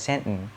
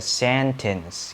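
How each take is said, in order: First: It is said lightly in an American accent. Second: It is said crisply in a British accent. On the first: "American itu kan lebih light, lebih ringan gitu kayak sentence" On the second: "kalau sentence dalam bahasa Inggris itu kan ... lebih saklek gitu, sentence kayak gitu"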